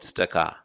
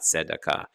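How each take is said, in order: First: The first vowel is rushed and nearly dropped. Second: All syllables get equal timing, first vowel full. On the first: The speaker calls it right. "it should be pronounced very quickly because it's shava na" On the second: The speaker calls it wrong. "It's not tzedakah"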